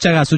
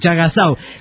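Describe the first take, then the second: First: The name ends in a 'su' sound. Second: The name ends in a 'sau' sound. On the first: The speaker calls it wrong. "no Chagasu" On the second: The speaker calls it right.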